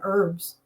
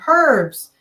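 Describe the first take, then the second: First: It has the American pronunciation, with a silent H. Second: It has the UK pronunciation, with the H sounded.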